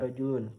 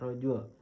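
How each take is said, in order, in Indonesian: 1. Kata itu diakhiri dengan bunyi nunasi -un. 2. Kata itu diakhiri tanpa bunyi nunasi -un.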